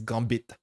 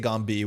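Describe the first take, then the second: First: The final syllable ends with a sounded t. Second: The final syllable ends without any t sound. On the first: The speaker calls it right. "The way that you would say Gombi in Quebecois is Gambit. You would actually do the bit" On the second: The speaker calls it wrong. "which is like not exactly correct, but good enough for me"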